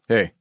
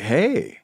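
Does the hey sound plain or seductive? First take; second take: plain; seductive. First: It is said in a plain, neutral way. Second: It is said in a seductive way.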